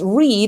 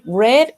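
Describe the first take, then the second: First: The vowel is long, rhyming with 'seed'. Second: The vowel is short, rhyming with 'bed'. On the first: It is the present tense. "because it's read in present" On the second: It is the past participle. "Read is in past"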